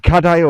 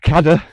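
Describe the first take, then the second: First: The name is said in its longer form. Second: The name is said in its shorter form. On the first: It is the Welsh word for chair. "I tend to say Kadaya" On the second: It follows the official park spelling. "changed the official spelling to Kada"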